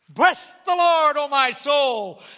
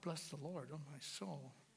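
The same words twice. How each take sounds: First: It is said loudly with strong energy. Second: It is said softly with little energy. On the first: The speaker is bursting with praise. The speaker calls it right. "The psalmist burst forth with this" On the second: The speaker shows little enthusiasm. The speaker calls it wrong. "I don't think he said"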